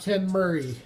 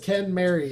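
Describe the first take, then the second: First: The second word sounds like 'Murray'. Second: The second word sounds like 'Mary'. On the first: The speaker calls it wrong. "It's not [name]" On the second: The speaker calls it right. "yes, it is [name]"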